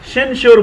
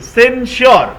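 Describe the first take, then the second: First: The word begins with a sh sound. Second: The word begins with a plain s sound. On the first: The speaker calls it wrong. "कुछ लोग शेंश्योर बोल रहे हैं, शेंश्योर नहीं है" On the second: The speaker calls it right.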